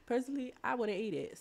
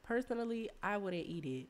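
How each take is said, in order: First: "personally" laughed out, pitched up; laughing. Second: Said in the usual way. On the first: Shown as a demonstration. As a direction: laugh through "personally, I wouldn't eat it". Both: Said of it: "repeated with a laugh".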